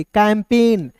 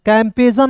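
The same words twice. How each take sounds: First: कैंपेन with a silent G, falling; right way: कैंपेन, G dropped; correct pronunciation. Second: कैंपेजन with the G sounded, the wrong way; mock-wrong कैंपेजन, G spoken aloud; wrong pronunciation shown. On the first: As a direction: say कैंपेन, no G sound at all. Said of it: "जी यहाँ पे दोस्तों silent होगा". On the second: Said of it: "नहीं पढ़ेंगे". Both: Shown as a demonstration.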